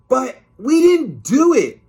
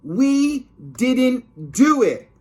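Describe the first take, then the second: First: High, loud whiny protest; much higher, louder childish protest. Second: Put-on high, loud, slow kid's wail; slow high wailing denial; drawn-out whiny protest. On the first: Acted. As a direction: wail your innocence like a kid. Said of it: "George protested". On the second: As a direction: stretch the complaint out. Repeat protest.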